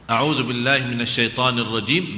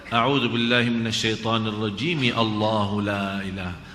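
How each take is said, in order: First: There is a pause after rajim. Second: There is no pause after rajim.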